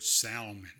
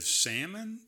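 First: Salmon with the L sounded, SAL-mun; salmon as in "Sal" plus "mun"; Jenna's pronunciation. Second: Salmon with silent L, SAM-un; salmon as SAM-un, lifted at the end; his own pronunciation. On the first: Retold or imitated. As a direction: say salmon with an audible L. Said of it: "that's the way that Jenna said the word". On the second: Shown as a demonstration. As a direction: say salmon without any L. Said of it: "I say salmon".

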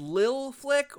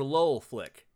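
First: LIL said with a short i, as in lily; "Lil" rhyming with pill; pronounced Lil. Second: LOL said as one word with a rounded o; "Lol" as a single rounded-vowel word; pronounced Lol. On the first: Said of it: "Is it pronounced [name]". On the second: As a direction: say "Lol" as one syllable, not spelled out. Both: Shown as a demonstration.

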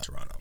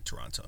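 First: Toronto said tor-ON-oh, middle t dropped; Toronto without the t. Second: Toronto said with a clear t, tor-ON-toe. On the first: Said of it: "not Toronto". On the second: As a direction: pronounce Toronto with the middle t sounded. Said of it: "obviously you say Toronto". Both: Shown as a demonstration.

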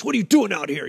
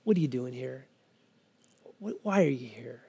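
First: Demonstrating a harsh challenge; mock-harsh question, as the wrong voice. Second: Low, hushed, gentle question; tender probing. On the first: Shown as a demonstration. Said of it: "It's not in a harsh". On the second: Acted. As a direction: softly draw her out. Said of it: "it's in a tender voice".

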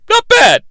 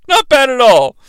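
First: Pitched up, impressed. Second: Said in the usual way. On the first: Real, not acted. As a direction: squeak out the praise.

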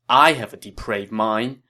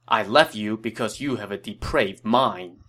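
First: "I" punched louder, rising question at "mind"; indignant echo question. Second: Said in the usual way. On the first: Acted. Captor retorts to former friend, stressing "I" in disbelief. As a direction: throw it back, hitting "I". Throws the accusation back as question.

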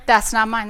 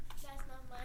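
First: Said in the usual way. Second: Unvoiced whisper of the refusal; whispered rebuke. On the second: Shown as a demonstration. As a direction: breathe it out without voice. Whispered rebuke during throwing demo.

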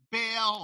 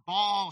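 First: "Baal" pronounced BAYL, rhyming with "sail"; Baal said as "bail". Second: "Baal" pronounced BAHL, with an open AH; Baal said as "ball". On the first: Preacher offering one option for the idol's name, "Baal" said as BAYL. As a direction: say "Baal" with a long AY vowel. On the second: Preacher offering the other option for the idol's name, "Baal" said as BAHL. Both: Shown as a demonstration. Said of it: "however you want to pronounce it".

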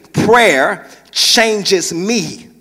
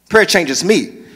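First: Slow emphatic. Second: Said in the usual way. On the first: Shown as a demonstration. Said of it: "Last thing".

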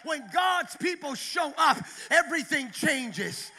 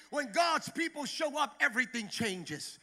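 First: The repeat belted out, GOD'S punched; louder preached repeat. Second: Said in the usual way. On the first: Shown as a demonstration. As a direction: hit it harder the second time. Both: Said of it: "Let me repeat that".

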